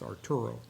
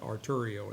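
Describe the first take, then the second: First: The name has no extra ee sound before the o. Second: The name has an extra ee sound before the o. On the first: The speaker calls it right. "it's Arturo" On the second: The speaker calls it wrong. "It's not Arturio"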